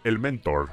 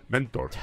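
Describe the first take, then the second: First: Said in the usual way. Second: "Mentor" said like the candy brand Mentos; "Mentor" with a chewing gum accent; gum-brand stress. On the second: Shown as a demonstration. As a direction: stress "Mentor" as a sweets name. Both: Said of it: "Cámbiale el acento y parece un tipo de chicle".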